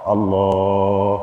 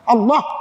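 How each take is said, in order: First: It is said softly and slowly. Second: It is said loudly and forcefully.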